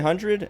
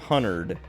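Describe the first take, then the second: First: It is said in a plain, everyday way. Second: It is said in a Southern-style way. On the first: "I say one hundred" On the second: "because that's how he she says it"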